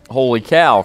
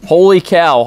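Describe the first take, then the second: First: Said in the usual way. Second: A high, loud holler of "Holy cow". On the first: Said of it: "what he thought was". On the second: A narrator's reading. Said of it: "hollered Manny the cook".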